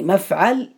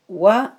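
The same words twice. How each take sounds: First: مفعل said "mafʕal", a in both syllables; fatha on mim and ayn. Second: ومفعل broken up as "wa... muf... ʕil"; u then i in ومفعل, syllables held apart; damma on mim, kasra on ayn. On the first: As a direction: sound out مفعل as "maf-ʕal". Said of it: "بفتح الميم وفتح العين". (مفعل بفتح الميم والعين: مَفْعَل) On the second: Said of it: "بضم الميم وكسر العين". (ومفعل بضم الميم وكسر العين: وَمُفْـعِل) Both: Shown as a demonstration.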